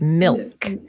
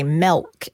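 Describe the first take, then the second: First: The vowel sounds like I, as in milk. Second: The vowel sounds like E, as in melk.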